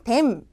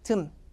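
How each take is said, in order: First: The word is said in full, clearly. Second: The word is reduced to a weak 'dum'. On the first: The speaker calls it wrong. "them 이렇게 정타로 발음 안 한다" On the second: The speaker calls it right. "비듬할 때 듬"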